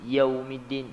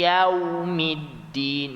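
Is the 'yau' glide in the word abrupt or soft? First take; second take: abrupt; soft. First: The 'yau' glide is abrupt, not softened. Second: The 'yau' glide is softened and smooth. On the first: The speaker calls it wrong. "dia tidak lunak" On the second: The speaker calls it right. "kena lunakkan bunyi tersebut"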